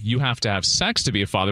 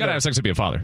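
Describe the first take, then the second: First: The words are said clearly and separately. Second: The words are slurred quickly together. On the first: "You wanted me to say" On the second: "when you slurred them all together"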